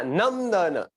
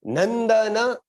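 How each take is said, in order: First: नंदन slowly as nəmdana. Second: नंदन higher, louder, rising; asking tone नंदन. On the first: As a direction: drag नंदन with an m sound. (नंदन धीरे, म के साथ) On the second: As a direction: pitch नंदन high as a question. (नंदन ऊँचे, प्रश्नवाचक स्वर में) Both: Shown as a demonstration. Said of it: "क्या आपने पढ़ा".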